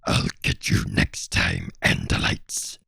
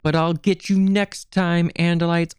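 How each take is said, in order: First: It is said in a Doctor Claw impression. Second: It is said in a plain voice.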